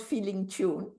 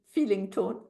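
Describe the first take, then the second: First: "tune" with a long oo vowel, as in moon; mispronounced as "tune" with an oo sound; wrong vowel tune. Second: "tone" with a long o vowel, as in bone; "tone" rhymes with bone, not moon; correct vowel tone. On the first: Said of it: "T O N E, not feeling tune". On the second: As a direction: say "feeling tone", o as in phone. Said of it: "T O N E". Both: Shown as a demonstration.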